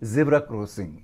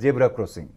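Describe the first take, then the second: First: The first word begins with a z sound. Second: The first word begins with a j sound. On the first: It is said the foreign English way. "এভাবে বলতে থাকে" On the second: It is said the native Bengali way. "তা আমি বাংলার মতোই করে বললাম"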